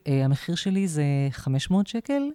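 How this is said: The pitch rises at the end like a question. The speaker seems to be asking for approval. The speaker calls it wrong. "עולה כמו שאלה"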